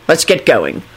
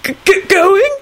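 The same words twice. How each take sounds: First: Low, firm instruction; lowered, businesslike voice; decisive. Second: Stammered, squeaky question; very high, startled stutter; high-pitched squeak. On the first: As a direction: say it as a settled decision. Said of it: "Kingsley said decisively". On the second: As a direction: squeak it out in alarm. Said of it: "squeaked out in a high-pitched voice". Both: A narrator's reading.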